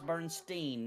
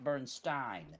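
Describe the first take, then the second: First: The last syllable sounds like 'steen'. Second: The last syllable sounds like 'stine'. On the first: The speaker calls it right. "it's German, it's gonna be Steen" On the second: The speaker calls it wrong.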